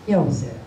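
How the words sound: It sounds curt and unpleasant.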